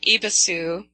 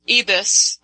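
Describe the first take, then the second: First: The name ends with an extra vowel sound. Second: The name ends without a final vowel sound. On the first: The speaker calls it wrong. "I guess it's not Ibisu" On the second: The speaker calls it right. "the U is silent"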